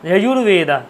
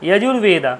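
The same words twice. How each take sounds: The two takes are said the same way.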